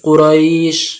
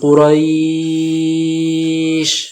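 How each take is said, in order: First: The vowel before the final sound is held one beat. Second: The vowel before the final sound is held three beats. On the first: "এক আলিফ দিতে পারেন" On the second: "তিন আলিফ দিতে পারেন"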